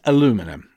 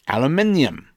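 First: It is said the American way. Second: It is said the British way. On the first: "But in America, it's aluminum" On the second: "In England, we used to call it aluminium"

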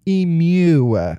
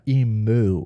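First: The word ends with a 'mew' sound. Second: The word ends with a 'moo' sound.

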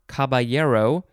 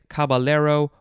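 First: The double L is said as a Y sound. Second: The double L is said as an L sound.

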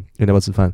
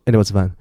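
First: Every syllable is clearly and fully pronounced. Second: The words are squeezed together with syllables dropped. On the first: "我刚刚说的中文" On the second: "外国人可能听不到我们讲什么"

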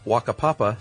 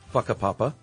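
First: The word begins with a W sound. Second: The word begins with an F sound. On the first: The speaker calls it wrong. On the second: The speaker calls it right.

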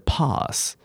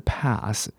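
First: It is said with a British accent. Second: It is said with an American accent. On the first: "可是英式英文是pass" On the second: "式英文是pass"

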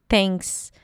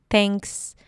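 Both takes have the same delivery.

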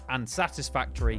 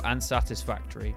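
First: It is said with lively, emotional expression. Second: It is said in a flat, robotic way. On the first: The speaker calls it wrong. "You had too much emotion to be Ryan" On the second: The speaker calls it right. "Needs to be more robotic"

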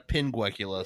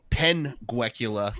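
First: The first syllable sounds like the word pin. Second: The first syllable sounds like the start of penguin. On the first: It names the eye condition. The speaker calls it right. "not a pinguecula" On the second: It suggests a penguin. The speaker calls it wrong. "that's a penguecula"

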